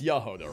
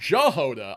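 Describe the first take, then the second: First: The name begins with a Y sound. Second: The name begins with a hard J sound. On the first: The speaker calls it right. "that's how the J is pronounced there" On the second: The speaker calls it wrong. "no, that's wrong"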